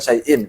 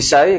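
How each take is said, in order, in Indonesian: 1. Kata syai berakhir dengan hamzah dan -in. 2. Kata syai berakhir tanpa hamzah di akhir. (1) "Sebenarnya kan syai'in kan begitu" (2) "bihadfil hamzati dengan membuang huruf hamzahnya"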